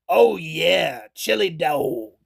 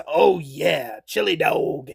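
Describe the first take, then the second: First: Low, slow, savoring mock movie voice; drawn-out lower imitation of a satisfied cop; Drebin chili dog line. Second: Low, hushed, half-whispered mock movie voice; Drebin chili dog line. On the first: Frank Drebin eyeing his chili dog, low slow imitation. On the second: Frank Drebin savoring his chili dog, hushed low imitation. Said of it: "and he says".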